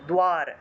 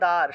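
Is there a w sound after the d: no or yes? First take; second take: yes; no. First: The d is followed by a w sound. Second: The d is not followed by a w sound. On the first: This is how it is said in Sanskrit. "Hindi সংস্কৃত হবে দ্বার" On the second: This is how it is said in Bengali. "বাংলায় বললে দ্বার"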